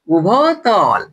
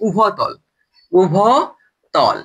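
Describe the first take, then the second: First: Said in the usual way. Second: উভতল stretched very slowly, syllable by syllable; drawn out. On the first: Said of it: "repeat after drawn-out take". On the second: Shown as a demonstration. Teacher drilling a new term for students, very slow. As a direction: spell the word out with your voice: উ-ভ-তল. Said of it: "teacher drills the new term".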